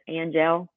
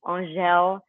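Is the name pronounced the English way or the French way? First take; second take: English; French. First: The name has an English-style pronunciation. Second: The name has a French-style pronunciation. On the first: The speaker calls it wrong. "prettier than Angel" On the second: The speaker calls it right. "isn't it so much prettier"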